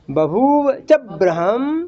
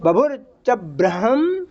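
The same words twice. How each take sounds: First: "बभूव" with long ू and व, very slow; corrected bhoova reading. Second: "बभुर" ending in r, drawn slowly; mistaken bhur reading. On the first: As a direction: stretch bhoo in "बभूव", sound ह in "ब्रह्म". ("बभूव" में लंबा ऊ और व, धीमा पाठ) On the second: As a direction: chant it slowly with "बभुर" for the first word. ("बभुर" में र की ध्वनि, धीरे पाठ) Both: Shown as a demonstration. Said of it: "बभुर नहीं".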